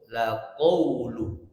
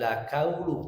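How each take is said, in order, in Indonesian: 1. Bunyi q-nya tebal, dari dalam tenggorokan. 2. Bunyi q-nya tipis, seperti k biasa. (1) "ko-nya tebalkan" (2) "bukan la kaulu"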